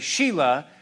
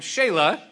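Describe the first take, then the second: First: The name sounds like the girl's name Sheila. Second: The name does not sound like Sheila. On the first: The speaker calls it wrong. "I'm tempted to say Sheila, but that doesn't sound right" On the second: The speaker calls it right. "So we'll call him Shelah"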